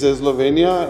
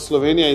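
First: An extra E vowel is added before the S. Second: The word starts directly with the S sound. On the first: "they put E before S" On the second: "it's not Slovenia"

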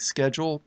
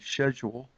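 First: It is pronounced the American way. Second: It is pronounced the British way. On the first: "we might say schedule" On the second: "the English might say schedule"

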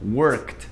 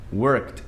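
Both takes have the same delivery.

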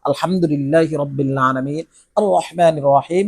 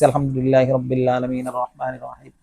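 First: The words are recited carefully with clear articulation. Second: The words are recited carelessly without clear articulation. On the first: The reciter is focused on the prayer. The speaker calls it right. "এভাবে সঠিক উচ্চারণ করে" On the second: The reciter is not paying attention. The speaker calls it wrong. "বেখেয়ালে পড়তে আছি"

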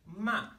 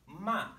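Both takes have the same delivery.

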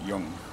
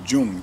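First: It begins with a Y sound, like young. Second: It begins with an English J sound. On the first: "But they pronounce it Jung" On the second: "I'm going to pronounce it Jung, J-U-N-G"

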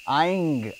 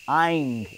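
No difference in how they are said.

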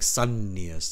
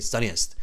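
First: The n sound is strong and held long. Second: The n sound is weak and short. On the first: The speaker calls it right. "you can hear that double N. It's really strong" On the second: The speaker calls it wrong. "You don't say sunniest"

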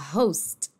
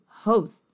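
First: It ends on the T with no vowel after. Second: The final T is swallowed and barely heard. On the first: "se fala host" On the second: "até mais comido que isso"

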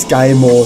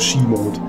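First: The first word rhymes with 'sky'. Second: The first word rhymes with 'see'. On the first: The speaker calls it wrong. "das heißt nicht Sky-Mode" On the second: The speaker calls it right. "sondern das heißt Ski-Mode"

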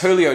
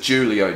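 First: The name begins with an H sound. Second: The name begins with a J sound. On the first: The speaker calls it right. "although it's a silent J" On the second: The speaker calls it wrong. "I said it was JULIO Jones"

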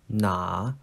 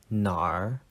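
First: The word ends in a plain vowel. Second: The word ends with an r sound. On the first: "It's pronounced na" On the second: "there's a hidden r if you want to add it. So I usually say nar"

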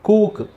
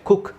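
First: The vowel is drawn out long. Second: The vowel is kept short. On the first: The speaker calls it wrong. "ಹೊರತು" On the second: The speaker calls it right. "ಅಂತ ಹೇಳಬೇಕು"

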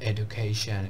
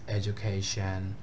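First: The 'du' is said with a plain 'd' sound. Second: The 'du' is said with a 'j' sound. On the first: The speaker calls it wrong. "not the education" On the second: The speaker calls it right. "it's education module"

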